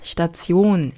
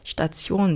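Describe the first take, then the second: First: The last syllable is not stressed. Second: The last syllable is stressed. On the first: The speaker calls it wrong. "스타치온 아니고" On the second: The speaker calls it right. "얘는 항상 강세가 일로 가요. 뒤를 올려주시고요"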